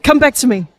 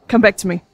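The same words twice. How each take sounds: First: Put-on American accent. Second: Said in the usual way. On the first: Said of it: "taste of that American accent". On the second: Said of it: "just remember a line".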